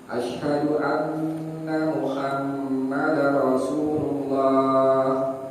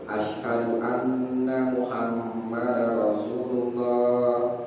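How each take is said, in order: First: It is said in a high voice. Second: It is said in a low voice.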